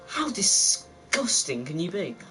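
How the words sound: It is said in a weird put-on accent.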